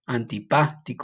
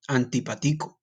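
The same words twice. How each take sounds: First: The 'pa' syllable is stressed. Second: The 'pa' syllable is not stressed. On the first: "you put an emphasis on the A" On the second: "if this word did not have an accent"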